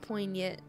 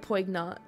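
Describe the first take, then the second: First: The g is silent, like poy-nyant. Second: The g is sounded, like poig-nant. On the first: The speaker calls it right. "It's French" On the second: The speaker calls it wrong. "I thought it was like, like poig"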